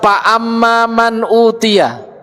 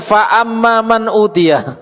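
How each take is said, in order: First: The first word begins with a p sound. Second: The first word begins with an f sound. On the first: The speaker calls it wrong. "di sebagian tempat ada yang tidak bisa mengucapkan fa. Terucap apa? Pa" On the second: The speaker calls it right. "bukan pa ... Tapi fa"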